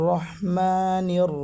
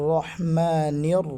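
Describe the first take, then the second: The two takes are said the same way.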